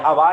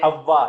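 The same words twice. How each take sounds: First: The w sound is short and single. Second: The w sound is held and doubled. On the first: The ordinary word for air. "ये हवा नहीं है" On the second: The name of the first mother. "इसके ऊपर तशदीद आ गया"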